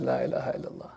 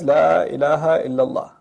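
First: Much softer and lower, deflated; hushed and crestfallen, the words barely spoken; dismayed murmur. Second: Said in the usual way. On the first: Retold or imitated. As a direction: murmur it to yourself in disbelief. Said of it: "I looked at that and I said". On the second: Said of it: "and on the plane it says".

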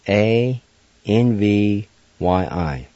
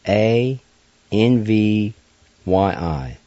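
The two takes are said the same way.

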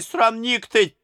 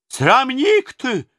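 First: Put-on old nurse repeating her insult at the tsar; angry retort. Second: Put-on slow, high, loud old woman shrieking "Срамник ты!"; old nurse yelling at the tsar, drawing out "Срамник ты!"; furious shout. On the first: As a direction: toss off "срамник ты!" high and quick. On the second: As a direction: drag out "Срамник ты!" in an outraged shriek. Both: A narrator's reading. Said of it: "закричала она на Иоанна".

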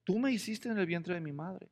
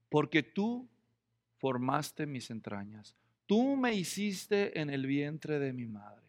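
First: Said in the usual way. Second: Slow, softer and lower, reverent; reverent psalm reading. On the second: Retold or imitated. Preacher quoting the psalmist to the congregation, slow and reverent. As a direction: read the psalm line slowly with reverence.

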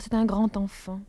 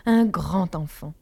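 First: Said in the usual way. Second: Slow, insistent "grand enfant"; repeated with energy. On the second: A narrator's reading. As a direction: lean hard on "grand enfant", drawn out. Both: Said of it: "Je répétais grand enfant avec énergie".

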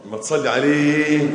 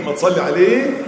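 First: "ما تصلي عليه" sung out slowly, ending on a falling "عليه"; "عليه" held and sung down; chanted call. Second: Loud call. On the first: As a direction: chant it to the congregation. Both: Real, not acted.

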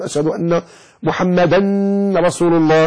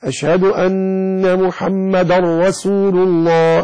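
First: محمدا ending in a held "-dan" before رسول; unmerged tanween. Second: Slow adhan chant, محمدا run into رسول as "muhammadar-rasul"; chanted, drawn-out call with "dar-ra" joined; merged tanween chant. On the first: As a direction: keep the n of محمدا clear, "muhammadan rasul". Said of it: "لا تقول". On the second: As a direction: chant it slowly, merging the end of محمدا into the r. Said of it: "ومن ترك إدغام الدال في الراء". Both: Shown as a demonstration.

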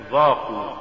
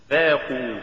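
First: ذاقوا with ذ thickened to emphatic ظ; faulty reading of ذاقوا, ظ replacing ذ; mispronounced ذ. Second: Said in the usual way. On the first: Shown as a demonstration. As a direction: say ذاقوا starting with a heavy ظ. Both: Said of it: "تقرأ لحنا".

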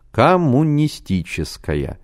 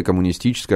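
First: "Коммунистическая" slowly, syllable by syllable, pitched higher; "Коммунистическая" drawn out and weighty, each syllable distinct; emphatic repetition. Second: Said in the usual way. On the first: A narrator's reading. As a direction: spell out "Коммунистическая" in slow, separated syllables for emphasis. Repeats the word for emphasis.

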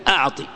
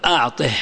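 First: Said in the usual way. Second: "أعطه" ending on breathed -ih, lower; ha of silence. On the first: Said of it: "الياء محذوفة". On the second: Shown as a demonstration. Teacher showing the pause form, final h. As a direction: drop the voice and close "أعطه" on h. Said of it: "تقف بالهاء".

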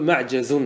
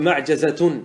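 First: معجز said "ma'jazun", no ta before the ending; form without ta. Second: معجزة said "ma'jazatun", ending voiced in full; form with ta. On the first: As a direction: say معجز with tanwin and no ta. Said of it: "أو بدون تاء تقول". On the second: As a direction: say معجزة with ta and tanwin. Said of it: "فلك بالتاء تقول". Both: Shown as a demonstration.

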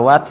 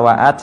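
First: วัด as one connected syllable; joined syllable. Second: วะอัด broken into two syllables; split syllables. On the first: Teacher gives learners the correct reading, วัด joined in one. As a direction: run it together as a single วัด. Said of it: "อ่านว่าวัด". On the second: Teacher warns learners against this reading, วะอัด split in two. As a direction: separate วะ from อัด with a fresh onset. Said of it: "อย่าอ่านว่าวะอัด". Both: Shown as a demonstration.

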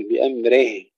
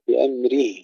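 First: بأمره ending in reh instead of rih; wrong slanted kasra. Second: بأمره ending in a clear rih; full kasra. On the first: Teacher shows the error, non-Arabic kasra in بأمره. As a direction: slacken the last i of بأمره to e. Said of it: "لا نقول". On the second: Teacher models correct بأمره, full Arabic kasra. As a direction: sharpen the last vowel of بأمره to pure i. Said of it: "تحقيق الكسر". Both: Shown as a demonstration.

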